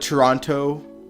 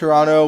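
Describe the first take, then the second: First: The second t sound is clearly pronounced. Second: The second t sound is dropped. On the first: The speaker never says it this way. "I've never called it Toronto" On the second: This is how the speaker normally says it. "I pronounce Toronto without the T at the end"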